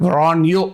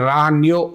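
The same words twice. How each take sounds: First: The word starts with a V sound. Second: The word starts without a V sound. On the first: "వీతో కలిపి కూడా పలుకుతున్నారు" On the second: "వి సైలెంట్గా పలుకుతున్నారు"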